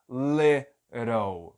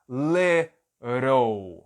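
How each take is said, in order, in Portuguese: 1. O T do meio é uma batida rápida, como o R. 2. O T do meio é uma batida rápida, como o R.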